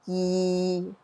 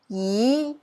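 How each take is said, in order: First: It is said with Cantonese tone six. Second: It is said with Cantonese tone two.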